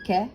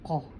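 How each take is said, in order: First: The first consonant is made further forward. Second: The first consonant is made deep in the throat. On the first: The speaker calls it wrong. "it's not like a, a ka" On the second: The speaker calls it right. "it's like a qa, qa, from inside, from deep inside"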